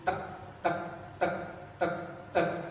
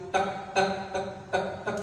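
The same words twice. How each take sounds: First: The ticks come at a quicker pace. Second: The ticks come at the quickest pace. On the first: Stress is rising. "semakin tekanan stresnya semakin tinggi" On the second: Stress is even higher. "Semakin tinggi lagi"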